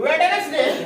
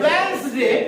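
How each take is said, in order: First: A d sound is pronounced in the middle. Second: The middle d sound is left silent. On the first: The speaker calls it wrong. "That is not called वेडनेसडे" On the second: The speaker calls it right. "इट is called वेंसडे"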